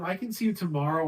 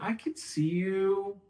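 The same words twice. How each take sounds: First: Fast, rushed "I can see you tomorrow"; rushed offer. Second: Slow, deliberate "I can see you"; slow down and leave them time to think; slow offer. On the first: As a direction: rattle it off with no pause. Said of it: "And you say it really fast". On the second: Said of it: "you have to talk slowly to give them time to think". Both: Shown as a demonstration.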